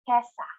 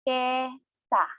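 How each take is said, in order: First: It is said at a normal, fluent speed. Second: It is said slowly, syllable by syllable.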